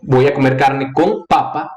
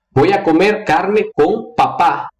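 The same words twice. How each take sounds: First: Spanish sentence ending on papa, first syllable stressed, second falling away. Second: Spanish sentence slowed down, ending on papá with the last syllable stressed; stress on final syllable. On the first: Teacher showing Brazilians the potato sentence, stress on first syllable of papa. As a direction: hit the first PA of papa, drop the end. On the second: Teacher showing Brazilians the dad sentence, stress on final syllable of papá. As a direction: land the weight on the final PÁ of papá. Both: Shown as a demonstration. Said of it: "São duas coisas muito diferentes".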